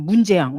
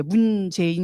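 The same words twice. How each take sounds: First: Offhand, louder "문재양", amused; careless name-calling. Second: Said in the usual way. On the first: Shown as a demonstration. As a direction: toss out "문재양" louder, with no reverence. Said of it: "막 이렇게 불러요". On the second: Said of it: "이렇게도 안 불러".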